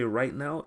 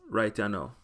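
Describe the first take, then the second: First: It is said in a standard English accent. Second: It is said in a Jamaican accent.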